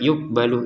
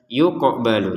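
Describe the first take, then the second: First: The q sound is said plainly without bounce. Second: The q sound is released with a bounce. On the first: The speaker calls it wrong. "Jangan sekedar" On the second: The speaker calls it right. "qafnya dipantulkan"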